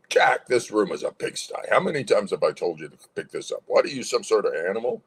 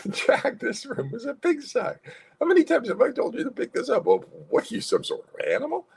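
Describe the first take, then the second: First: Brisk, scolding parent; angry parent. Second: Much higher, smiling mock scolding; happy scolding. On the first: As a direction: scold a son with angry authority. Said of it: "different tone". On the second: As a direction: scold playfully with a laugh in the voice. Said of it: "you can add the happy to the angry emotion". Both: Shown as a demonstration.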